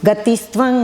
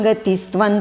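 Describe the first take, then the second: Both takes have the same delivery.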